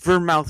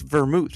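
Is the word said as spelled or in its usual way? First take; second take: as spelled; usual way. First: The word is sounded out following its spelling. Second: The word uses its usual spoken pronunciation. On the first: "It's like Vermouth right there" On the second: "vermouth is how it sounded out"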